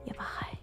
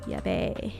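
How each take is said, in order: First: The word is said in its standard full form. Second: The word is said in a clipped slangy form.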